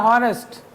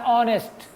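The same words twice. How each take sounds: First: हॉनेस्ट with the h sounded; हॉनेस्ट said as written, h pronounced at the start; spelling pronunciation. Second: ऑनेस्ट starting straight on the vowel, no h; ऑनेस्ट with the h left silent. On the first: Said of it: "लेकिन एच is silent". (हॉनेस्ट में एच बोलकर) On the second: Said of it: "इसका उच्चारण होता है ऑनेस्ट". (ऑनेस्ट बिना एच की आवाज़ के) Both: Shown as a demonstration.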